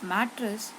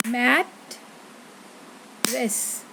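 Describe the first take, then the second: First: Said in the usual way. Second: "mat, rest" split in two with a long gap; syllable by syllable. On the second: Shown as a demonstration. Teacher clapping on each syllable, "mat, rest" broken apart. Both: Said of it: "I'm going to clap on each syllable".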